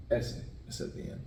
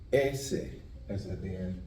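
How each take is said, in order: First: S is at the end, whispered back; S whispered, as "ese"; whispered repeat. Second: Slow, careful S is at the end; S said slowly, as "ese"; slow demo. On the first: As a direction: breathe it softly like a prompt. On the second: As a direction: spell it out slowly for the learner. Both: Shown as a demonstration.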